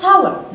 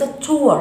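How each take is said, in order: First: "tower" with a wide OW glide, TAU-er; "tower" opened up from AH to W; correct tower. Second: "tour" with an OO vowel, TOO-er; "tour" said as the mistaken form of tower; wrong reading of tower. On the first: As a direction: say "tower" rhyming with "shower". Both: Shown as a demonstration. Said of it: "ليس tour".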